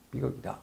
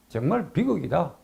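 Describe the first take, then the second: First: Softer, falling repeat of 비극이다; a low, sinking afterthought; quiet echo. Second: Said in the usual way. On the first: Real, not acted. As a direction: let 비극이다 drop away to near nothing. Quiet echo of own verdict.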